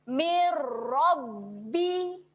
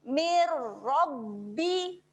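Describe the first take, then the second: Both takes have the same delivery.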